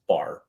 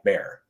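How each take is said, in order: First: The vowel sounds like the one in 'car'. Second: The vowel sounds like the one in 'air'. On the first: The speaker calls it right. "of course it's Bar" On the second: The speaker calls it wrong. "They always call me [name]"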